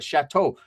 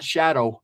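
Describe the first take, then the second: First: The middle consonant is a T sound. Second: The middle consonant is a D sound. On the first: The speaker calls it right. "which is actually pronounced Chateau Park" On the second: The speaker calls it wrong. "Not shadow, like the shadow"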